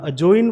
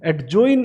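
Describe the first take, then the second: First: The d sound before j is silent. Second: The d sound before j is pronounced. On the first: The speaker calls it right. "यहाँ अजोइन word लिखा है" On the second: The speaker calls it wrong. "हमने एडजोइन इसे नहीं बोला है"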